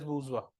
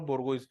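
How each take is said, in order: First: It is said boo-zhwa, ending in wa. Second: It is read letter by letter, ending in z. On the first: The speaker calls it right. "It is बूजवा" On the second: The speaker calls it wrong. "इसे बोर्गोइज पढ़ता है, but it is not बोर्गोइज"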